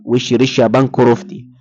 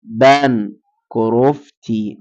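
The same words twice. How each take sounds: First: Said in the usual way. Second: بانكروفتي stretched syllable by syllable, very slow; dictating بانكروفتي at a crawl; slow careful spelling-out. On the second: Shown as a demonstration. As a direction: drag out بانكروفتي slowly so students catch it.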